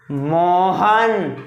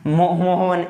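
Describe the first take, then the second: First: मोहन said very slowly with the vowels held long; drawn-out pluta vowel. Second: Said in the usual way. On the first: Shown as a demonstration. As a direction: stretch मोहन out, holding each vowel. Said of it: "ये ऐसे पढ़ा जाएगा". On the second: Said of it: "ऐसे तो पढ़ा नहीं जाएगा".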